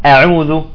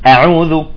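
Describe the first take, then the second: Both takes have the same delivery.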